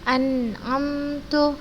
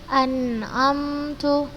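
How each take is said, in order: Both takes have the same delivery.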